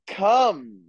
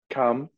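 First: It is said loudly with excitement. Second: It is said fairly calmly.

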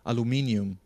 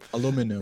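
First: It is said the British way, aluminium. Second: It is said the North American way, aluminum.

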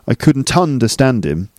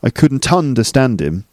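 First: The 'ton' sound between the words is stressed. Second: The 'ton' sound between the words is stressed.

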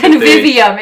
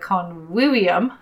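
First: It has an English-style pronunciation. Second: It has a classical Latin-style pronunciation. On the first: The speaker calls it wrong. "if you don't" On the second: The speaker calls it right. "if you pronounce it properly"

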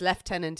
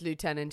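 First: It is said the British way. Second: It is said the American way. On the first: "it's Lieutenant in England" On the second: "but it's Lieutenant in America"

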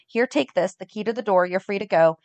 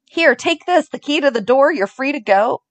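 First: It is said in an icy, cold tone. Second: It is said in a warm, tender tone.

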